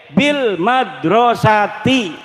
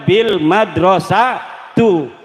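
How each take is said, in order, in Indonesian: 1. Kata terakhir berakhir dengan vokal i. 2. Kata terakhir berakhir dengan vokal u. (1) "Setiap kalimat kependak B wajib dibaca jer" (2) "orang uli dibaca bil madrasatu"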